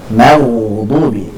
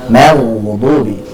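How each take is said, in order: Both takes have the same delivery.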